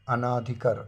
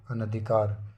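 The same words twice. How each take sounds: First: अनाधिकार with long aa after n; wrong form. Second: अनधिकार with short a after n; correct form. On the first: Teacher showing the error, अनाधिकार with long naa. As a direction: say अनाधिकार as a-NAA-dhi-kaar. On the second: Teacher correcting it, अनधिकार with short na. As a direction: say अनधिकार as a-na-dhi-kaar. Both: Shown as a demonstration. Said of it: "मात्रा नहीं आएगा".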